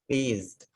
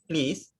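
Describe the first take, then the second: First: The final sound is a buzzing z. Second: The final sound is a hissing s. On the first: The speaker calls it right. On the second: The speaker calls it wrong.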